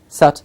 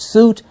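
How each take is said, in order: First: The vowel is short, like in foot. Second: The vowel is long, like in food. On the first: The speaker calls it right. "it's sut" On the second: The speaker calls it wrong. "It's not soot"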